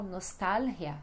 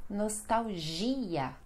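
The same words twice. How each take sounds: First: "nostalgia" as nos-TAL-hia, stress on TAL; Spanish pronunciation. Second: "nostalgia" as nos-tau-ZHI-a, stress on GI; L like U and a long GI in "nostalgia"; Portuguese pronunciation. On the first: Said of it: "muito usada no espanhol". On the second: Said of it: "no português vai ficar". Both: Shown as a demonstration.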